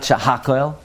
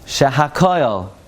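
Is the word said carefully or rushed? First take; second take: rushed; carefully. First: The word is rushed and slurred. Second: The word is said carefully and fully. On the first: The speaker calls it wrong. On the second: The speaker calls it right.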